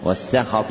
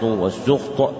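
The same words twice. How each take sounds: First: والسخط read as "was-sakhat", "a" after the s; fatha on سين. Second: والسخط read as "was-sukht", "u" after the s; damma on سين. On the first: Teacher repeats the first valid reading, والسخط as "was-sakhat". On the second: Teacher repeats the second valid reading, والسخط as "was-sukht". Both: Shown as a demonstration. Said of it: "بفتح السين وضمها".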